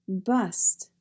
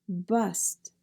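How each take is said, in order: The two takes are said the same way.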